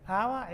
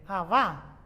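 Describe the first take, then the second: First: Said in the usual way. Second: Abá with the stress on the final á, drawn out slowly; slow abá, weight on the final á; stress on last syllable. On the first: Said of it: "aba es pelo". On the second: Shown as a demonstration. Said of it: "si uno lo acentúa la última".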